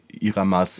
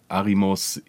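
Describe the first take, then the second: First: The vowels are i, a, a. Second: The vowels are a, i, o. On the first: "er wird immer anders genannt" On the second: "keiner kann diesen Vornamen richtig aussprechen"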